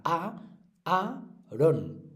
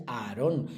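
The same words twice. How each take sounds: First: "Aarón" split as A - a - rón; por sílabas. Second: Said in the usual way. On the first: Shown as a demonstration. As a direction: separate each syllable of "Aarón" with pauses. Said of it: "separadas, una en cada sílaba". ("Aarón" separado en sílabas: A, a, rón) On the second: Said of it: "una en cada sílaba".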